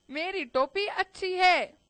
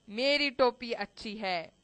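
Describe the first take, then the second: First: Higher, raised-voice royal boast; insistent king. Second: Firmly contradicting mouse. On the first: King argues with mouse over caps, insistent higher boast. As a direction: push the claim up and out. King claims his cap is better. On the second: Mouse contradicts the king, firm and contained. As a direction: state it as settled, without raising it. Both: A narrator's reading.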